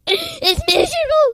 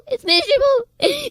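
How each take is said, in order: First: High, slow, cracking with tears; voice breaking. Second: High, slow tearful repeat; voice breaking. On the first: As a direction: let it crack into a sob. Warning of hell, voice breaking. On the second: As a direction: hold the crack, slowly. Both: Real, not acted.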